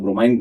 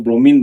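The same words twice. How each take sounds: First: ब्रोमाइन with an eye sound at the end, bro-MINE; other way to say it. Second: ब्रोमीन with a long ee at the end, bro-MEEN; one way to say it. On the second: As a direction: say ब्रोमीन ending in a long ee sound. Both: Shown as a demonstration. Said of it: "pronunciation अपना अलग अलग है".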